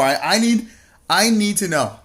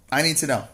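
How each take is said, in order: First: Higher, louder mock-desperate plea. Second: Said in the usual way. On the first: Teasing chatter Mark Rowe for spoilers, mock desperate. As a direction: plead to know, hammed up. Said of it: "mock desperate plea". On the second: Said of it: "repeated flat".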